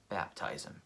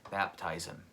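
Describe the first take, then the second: First: Softer, whispered inner voice. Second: Said in the usual way. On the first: Retold or imitated. Hearing God's answer by the road, whispered. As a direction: breathe it like a quiet inner prompting.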